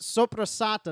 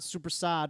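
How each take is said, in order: First: The word ends with its full final syllable. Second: The word ends without its final vowel syllable. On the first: The speaker calls it right. "It's soprasata" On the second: The speaker calls it wrong. "not supersad"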